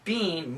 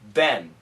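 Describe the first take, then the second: First: The vowel is long, like in 'bean'. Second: The vowel is short, like in 'Ben'. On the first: The speaker calls it wrong. "We don't say bean" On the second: The speaker calls it right. "American pronunciation, Ben"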